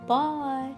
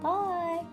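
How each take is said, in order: First: It is said in a deep, gruff voice. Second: It is said in a medium voice.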